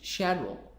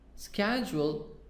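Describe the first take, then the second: First: It is said with a British accent. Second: It is said with an American accent.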